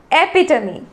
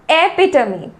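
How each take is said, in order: Both takes have the same delivery.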